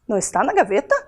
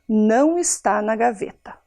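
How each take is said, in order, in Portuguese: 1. A voz sobe no final, como uma pergunta. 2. A voz desce no final, como uma afirmação. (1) "Mesma frase, eu mudei o tom"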